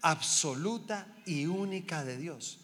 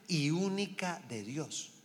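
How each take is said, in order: First: Absoluta hit hard; stress on absoluta. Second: Única drawn out slowly; slow, weighty "y única de Dios"; stress on única. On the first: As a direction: repeat it, punching absoluta. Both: Shown as a demonstration. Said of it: "Escúchame".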